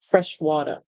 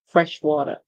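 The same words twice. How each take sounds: First: It is said in an American accent. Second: It is said in an American accent.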